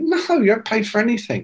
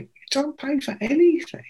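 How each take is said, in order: First: Quick, high-pitched matter-of-fact reply; brisk retold assurance; retold dismissive answer. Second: Very high, softer astonished question; squeaky retold amazement; incredulous echo. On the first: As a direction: brush the question off as obvious. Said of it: "And he went". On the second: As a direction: repeat it back in hushed disbelief. Echoes the answer in amazement.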